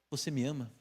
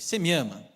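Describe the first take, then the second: First: The question sounds gentle and loving. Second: The question sounds sarcastic and mocking. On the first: The asker offers love and reassurance. The speaker calls it right. "Jesus era manso. Jesus era amor" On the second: The asker doubts and mocks the listener. The speaker calls it wrong. "Jesus não era assim, sarcástico, irônico"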